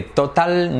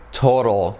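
First: "total" with a hard T in the middle and Spanish vowels; Spanish-style TOTAL. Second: "total" with the middle T as a tapped R, "toro" plus dark L; American TOTAL. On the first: ("total" a la española, con T clara) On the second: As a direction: say "total" like "TOH-rol". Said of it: "La T convertida en una R". ("total" como "tórol", T hecha R suave) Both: Shown as a demonstration.

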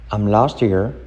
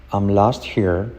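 The two takes are said the same way.

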